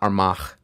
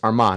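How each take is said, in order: First: The final gh is a soft breathy h. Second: The final gh is silent. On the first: The speaker calls it wrong. "had a soft huh sound to it. I mispronounced it" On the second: The speaker calls it right. "the GH is silenced"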